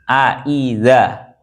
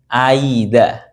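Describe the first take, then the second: First: The second glottal stop is said fully and clearly. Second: The second glottal stop is softened toward a glide. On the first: "Tahqiq ini artinya hamzahnya dibaca jelas" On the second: "membaca antara hamzah dengan eh, huruf yang sesuai dengan harokatnya"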